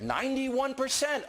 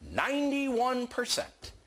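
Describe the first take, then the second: First: Said in the usual way. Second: "Ninety-one percent" slower and pitched high; emphatic repeat. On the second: Real, not acted.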